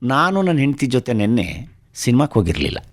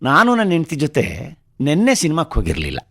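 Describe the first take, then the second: First: The word for cinema is stressed. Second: The word for yesterday is stressed. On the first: They went out, but not to the cinema. "ನಾನು ನನ್ನ ಹೆಂಡತಿ ಹೋಗಿದ್ವಿ, ಸಿನಿಮಾಕ್ಕೆ ಹೋಗಿರಲಿಲ್ಲ ಅಂತ" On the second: They went to the cinema, but on another day. "ಆದರೆ ನೆನ್ನೆ ಅಲ್ಲ, ಯಾವತ್ತೋ ಬೇರೆ ದಿವಸ"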